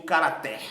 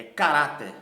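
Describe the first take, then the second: First: "caráter" wrongly stressed on the last syllable, ca-ra-TÉR; wrong final stress. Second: "caráter" stressed on the middle syllable, ca-RÁ-ter; correct penultimate stress. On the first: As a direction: say "caráter" as caratér, hitting TÉR. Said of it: "Eu não pronuncio caráter". ("caráter" com a tônica errada no fim: caratér) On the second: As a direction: punch RÁ loudly in "caráter". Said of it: "é caráter". ("caráter" com força na penúltima sílaba: ca-RÁ-ter) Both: Shown as a demonstration.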